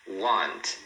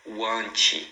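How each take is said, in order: First: The final T is soft and light. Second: The final T is strong and forceful. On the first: The speaker calls it right. "O T final também suave" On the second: The speaker calls it wrong. "Não faz want, que aí fica ruim"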